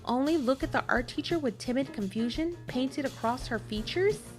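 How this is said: The pitch rises at the end like a question. It sounds like a question. The speaker calls it wrong. "why did I say it like that? Like it was a question"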